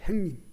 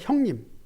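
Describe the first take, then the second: First: The first syllable is pronounced 'haeng'. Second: The first syllable is pronounced 'hyeong'. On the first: It is the rough gangster-world way of addressing someone. The speaker calls it wrong. "형님은 조폭 세계에서 행님이라고" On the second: It is the standard, proper way of addressing someone. The speaker calls it right. "그러나 맞게 형님"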